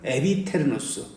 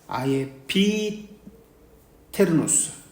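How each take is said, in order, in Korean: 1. 첫 모음은 하나의 'eh' 소리입니다. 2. 첫 모음은 두 소리, 'ah-yeh'입니다.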